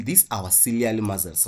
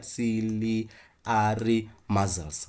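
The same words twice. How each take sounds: First: Said in the usual way. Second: "Ciliary muscles" spelled out slowly, each syllable of "Ciliary" clear; teacher modelling "Ciliary muscles" very slowly; slow careful pronunciation. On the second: Shown as a demonstration. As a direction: drag out "Ciliary muscles" syllable by syllable for students to copy.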